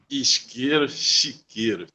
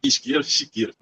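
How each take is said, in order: First: It is said at a normal speed. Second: It is said fast.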